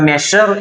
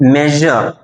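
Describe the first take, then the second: First: The middle consonant is a voiceless sh sound. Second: The middle consonant is a voiced zh sound. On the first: The speaker calls it wrong. "പല ആളുകളും തെറ്റിച്ചാണ് മെഷർ എന്ന് ഉച്ചരിക്കാറുണ്ട്" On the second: The speaker calls it right. "ഈ വാക്ക് ശരിയാവണ്ണം ഉച്ചരിക്കേണ്ടത്"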